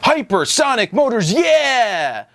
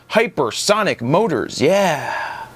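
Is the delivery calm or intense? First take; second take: intense; calm. First: It is said intensely, with high energy. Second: It is said calmly, with low energy. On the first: The speaker calls it right. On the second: The speaker calls it wrong.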